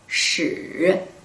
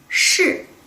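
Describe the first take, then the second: First: The pitch dips low and then rises. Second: The pitch falls sharply from high. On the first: It means history. "third tone, curved tone could be history" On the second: It means yes. "falling tone could be yes"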